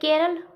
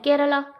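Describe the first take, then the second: First: The word ends on the consonant l. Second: The word ends with a final a vowel. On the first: "कई लोग बोलते हैं केरल" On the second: "कई लोग बोलते हैं केरला"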